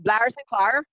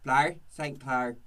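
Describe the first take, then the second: First: Lightly Irish "Blair Saint Clair", rising at the end; a quick hint of an Irish accent on "Blair Saint Clair". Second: Put-on slow "Blair Saint Clair" in a light Irish accent. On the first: Guest shows how the Irish say her name, a light Irish accent. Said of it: "There's also, like". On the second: Host answers the guest with a slow, mild Irish accent. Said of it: "Um, Irish".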